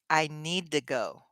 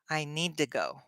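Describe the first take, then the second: First: The words run together in one smooth chunk. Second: The words run together in one smooth chunk.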